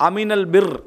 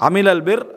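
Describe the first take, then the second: The two takes are said the same way.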